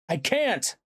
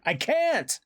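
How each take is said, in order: First: High, helpless cry; cried out. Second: Very high, desperate cry; cried out. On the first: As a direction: cry out that you are powerless. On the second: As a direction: peak in helpless desperation. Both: A narrator's reading. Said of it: "I cried out".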